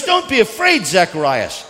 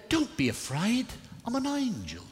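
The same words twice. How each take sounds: First: Loud, high proclamation; forceful cry, dropping on the name; preached angel's call. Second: High, hushed British angel; British accent. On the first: Same angel line, preached in own accent. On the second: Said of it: "In his best British accent". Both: Acted.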